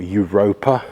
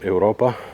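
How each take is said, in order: First: It is said with an English accent. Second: It is said without an English accent.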